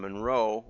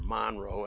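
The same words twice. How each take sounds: First: Monroe is said the usual outsider way. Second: Monroe is said the way locals say it.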